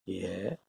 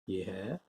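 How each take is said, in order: Both takes have the same delivery.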